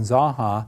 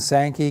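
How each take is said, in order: First: The word ends with a 'ha' sound. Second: The word ends with a 'kee' sound. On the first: The speaker calls it right. "Zaha is really the correct, per, correct pronunciation" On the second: The speaker calls it wrong. "the mispronunciation of the Zaha"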